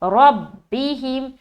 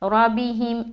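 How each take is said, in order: First: The doubled b is joined firmly with pressure. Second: The doubled b is joined loosely, without firmness. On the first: The speaker calls it right. "आवाज में जमाव होनी चाहिए, जैसे कि रब्बिहिम" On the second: The speaker calls it wrong. "जैसे बाज़ औक़ात लोग मिलाते हैं रब्बिहिम रब्बिहिम ऐसा पढ़ते हैं, जो क्या गलत है"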